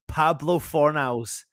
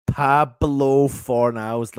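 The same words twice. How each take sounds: First: Savouring the name. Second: Pablo Fornals drawn out long and louder; savoured name. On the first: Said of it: "name savoured slowly". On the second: Fan savouring the goalscorer's name, drawn out. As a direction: stretch out Pablo Fornals like a chant. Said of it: "name savoured slower, louder". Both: Real, not acted.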